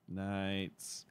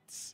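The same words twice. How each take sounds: First: It is said in a low pitch. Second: It is said in a higher pitch.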